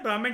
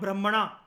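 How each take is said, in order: First: The word ends clipped, without a long final vowel. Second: The word ends with a long open 'aa' vowel. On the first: "जिसको हम बोलते हैं ब्राह्मण" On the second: It names a class of sacred texts. "मैं कह रहा हूं ब्राह्मणा"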